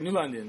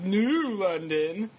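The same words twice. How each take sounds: First: It rolls together, with no stress on New. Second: The word New is emphasized and set apart. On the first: The speaker calls it right. "I don't emphasize the new... It just rolls" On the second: The speaker calls it wrong. "Not like New London"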